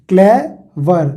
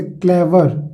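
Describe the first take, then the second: First: "क्लेवर" broken into two sounds, क्ले then वर; split into syllables. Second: Said in the usual way. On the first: Shown as a demonstration. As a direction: pause between क्ले and वर in "क्लेवर". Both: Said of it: "दो sound है".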